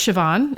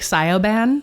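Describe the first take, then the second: First: The name is said with its Irish pronunciation. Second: The name is sounded out letter by letter. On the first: The speaker calls it right. "but it's Siobhan" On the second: The speaker calls it wrong. "it looks like Sioban"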